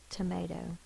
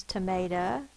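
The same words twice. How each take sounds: First: "tomato" ending in a long O. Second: "tomato" ending in uh instead of long O; schwa ending. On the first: Teacher returning to the open syllable, "tomato" ending in long O. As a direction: finish "tomato" on oh, softer: tuh-may-toh. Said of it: "it could be the long O". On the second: Teacher giving the alternative pronunciation, "tomato" ending in uh. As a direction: finish "tomato" on a relaxed uh: tuh-may-tuh. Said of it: "sometimes we say uh". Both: Shown as a demonstration.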